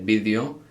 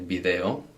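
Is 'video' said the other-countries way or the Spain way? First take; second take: Spain; other countries. First: It is pronounced the way people in Spain say it. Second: It is pronounced the way other countries say it. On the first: "in Spain they say video" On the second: "in lots of other countries they say video"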